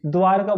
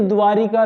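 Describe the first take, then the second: First: द्वारका with no "i" before ka; द्वारका, r running straight into ka; correct pronunciation. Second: द्वारिका with an extra "i" before ka; द्वारिका, inserted "ri" syllable; mistaken pronunciation. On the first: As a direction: say द्वारका as "dvaar-ka". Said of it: "तो लिखेंगे भी शुद्ध". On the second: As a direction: say द्वारिका as "dvaa-ri-ka". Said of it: "लिखेंगे भी तो गलत हम". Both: Shown as a demonstration.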